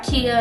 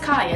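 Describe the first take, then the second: First: The first vowel sounds like 'ee'. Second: The first vowel sounds like 'eye'. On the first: The speaker calls it wrong. "It's not Kia" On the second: The speaker calls it right. "it's Kaya"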